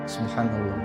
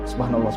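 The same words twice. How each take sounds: First: It is said slowly and clearly. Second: It is said quickly and hurriedly. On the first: The remembrance is done with care. The speaker calls it right. "kalimatnya agak pelan, fasih, itu lebih lambat lagi" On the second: The remembrance is rushed to finish early. The speaker calls it wrong. "Mereka cepet"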